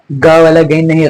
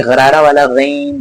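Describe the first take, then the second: First: गैन said with a plain hard g; गैन with a hard g, no gargle; plain g ghain. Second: गैन said slowly with a gargling throat sound; gargled ghain. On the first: Teacher showing students the wrong गैन with a plain g. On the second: Teacher showing students the gargled गैन. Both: Shown as a demonstration.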